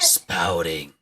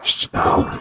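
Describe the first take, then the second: First: It is said in his normal voice. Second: It is said in a put-on voice.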